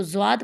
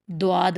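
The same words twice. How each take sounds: First: زواد beginning on z with a w glide; wrong zwaad. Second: دواد beginning on d with a w glide; wrong dwaad. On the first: Teacher quotes how some people misread it, زواد with w glide. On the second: Teacher quotes how others misread it, دواد with d. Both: Shown as a demonstration. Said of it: "یہ بالکل غلط ہے".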